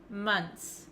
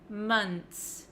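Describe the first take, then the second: The two takes are said the same way.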